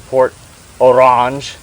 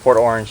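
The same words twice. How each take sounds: First: The name is pronounced in an unusual way. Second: The name is pronounced in the ordinary way.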